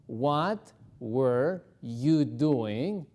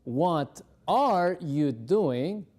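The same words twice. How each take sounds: First: "were" and "you" drawn out slowly; slow past-tense drill; slow past form. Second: "are" drawn out and pushed; slow drill stressing "are". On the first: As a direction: contrast with the present, slowly. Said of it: "al ponerlo en pasado". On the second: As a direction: lean on "are", slowly. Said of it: "La forma presente de este verbo es el verbo are". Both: Shown as a demonstration.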